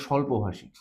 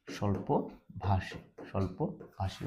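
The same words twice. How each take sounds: First: Said in the usual way. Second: স্বল্পভাষী softly, very slowly, in separated pieces; slow dictation. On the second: Shown as a demonstration. Teacher repeating a meaning for students, slow soft dictation. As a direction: break স্বল্পভাষী into slow, quiet syllables.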